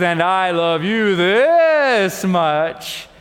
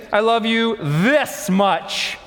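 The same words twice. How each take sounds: First: Very slow, full and tender father voice; a dad gently outdoing his son; slow, loving daddy bunny, savoring each word. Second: Slow, proud little bunny stretching each word; a child showing off how much; lightly voiced bunny child, slow and proud; baby bunny. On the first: Acted. Daddy bunny's tender final answer. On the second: Baby bunny's final boast.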